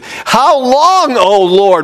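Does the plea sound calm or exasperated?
exasperated. It is said in an anguished, exasperated way. The speaker is fed up and demanding action. The speaker calls it right. "It's how long, O Lord? What is the deal?"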